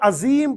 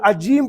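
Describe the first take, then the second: First: The middle consonant is a 'z' sound. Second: The middle consonant is a 'j' sound. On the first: "अजीम पढ़ दिया जे से" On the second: "अजीम पढ़ दिया जीम से"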